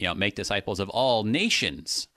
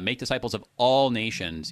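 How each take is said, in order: First: The stress falls on the word nations. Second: The stress falls on the word all. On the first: The message reaches the nations as a whole. The speaker calls it right. "I made nations bigger" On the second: Every nation without exception is meant. The speaker calls it wrong. "you are actually reading it wrong"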